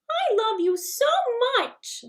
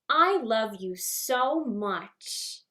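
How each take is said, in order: First: It is said very high like Mickey Mouse. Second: It is said in a childlike Orphan Annie voice.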